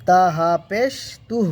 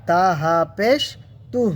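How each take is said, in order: No difference in how they are said.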